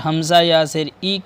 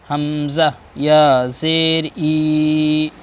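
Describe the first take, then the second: First: The final vowel is said short. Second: The final vowel is drawn out long. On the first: The speaker calls it wrong. "अगर हमज़ा या ज़ेर ई कर देंगे तो ये गलत है" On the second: The speaker calls it right. "खींच कर पढ़ेंगे"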